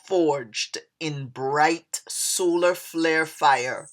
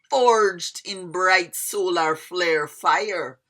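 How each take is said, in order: First: It is read without a Jamaican accent. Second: It is read with a Jamaican accent.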